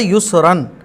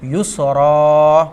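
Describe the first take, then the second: First: The word ends in an n sound. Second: The word ends in a long a vowel. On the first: This is the word's full form without stopping. "असल में क्या था" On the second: The reader stops on this word. "तो हम इसको क्या पढ़ते हैं आयत करते टाइम"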